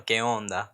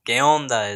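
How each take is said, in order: First: "¿Qué onda?" said plainly as keh ON-da; Mexican slang. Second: "¿Qué onda?" said louder with a falling end on "onda"; Mexican slang, louder. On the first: Vlogger teaching Mexican slang, "¿Qué onda?" said plainly. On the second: Vlogger repeating Mexican slang greeting, "¿Qué onda?" called out louder. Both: Shown as a demonstration. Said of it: "You know".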